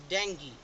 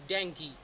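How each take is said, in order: The two takes are said the same way.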